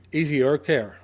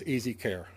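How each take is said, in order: First: EASIER said louder and firmly; stress on EASIER. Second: Said in the usual way. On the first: Shown as a demonstration. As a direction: hit the word EASIER to correct the term. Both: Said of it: "I emphasize the easier".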